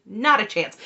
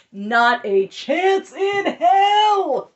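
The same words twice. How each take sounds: First: Said in the usual way. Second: Loud, very slow, high cry of outrage; outraged shout. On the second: Real, not acted. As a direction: drag out "Not a chance in hell" as a shouted, cracking outburst. Outraged reaction, then retracts.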